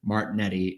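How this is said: The name is said with an American pronunciation. This is the simplified form used in the US. "is how you pronounce it in the U S"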